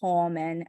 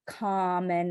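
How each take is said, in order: First: The first vowel sounds like 'or'. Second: The first vowel sounds like 'ah'. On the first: The speaker calls it wrong. "not common" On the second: The speaker calls it right.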